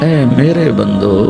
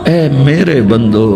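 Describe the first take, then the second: No difference in how they are said.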